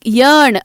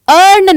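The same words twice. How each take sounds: First: यर्न said with an opening Y sound; Y at start. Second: अर्न drawn out, louder, opening straight on the vowel; without the Y. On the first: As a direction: start यर्न on a clear Y glide. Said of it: "वाई से start हो रहा है". (यर्न, शुरू में य की आवाज़ के साथ) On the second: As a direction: drop the Y glide from अर्न. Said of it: "अर्न नहीं". (अर्न, बिना य के, सीधे स्वर से शुरू) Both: Shown as a demonstration.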